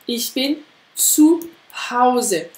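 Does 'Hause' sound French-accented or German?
German. Hause has a clear German 'ao' diphthong. The speaker calls it right. "Avec bien le ao"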